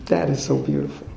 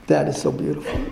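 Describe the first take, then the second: First: Softly, in quiet wonder; hushed awe. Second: Whispered, breathless with wonder; awed whisper. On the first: Repeated in awe, softer. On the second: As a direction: drop to a whisper of pure awe. Repeated again, whispered. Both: Real, not acted.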